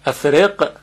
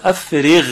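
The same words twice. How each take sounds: First: افرق said with a hard qaf from the back of the throat, as the wrong reading; افرق with a clipped q, the mistake being shown; افرق as the incorrect qaf version; wrong qaf sound. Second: افرغ said with a voiced, gargled ghain; افرغ as the corrected ghain version. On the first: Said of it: "افرق غلطه". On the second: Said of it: "افرغ دقیقاً مثل غینی که در". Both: Shown as a demonstration.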